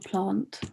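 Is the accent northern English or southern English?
southern English. It has a long southern English vowel.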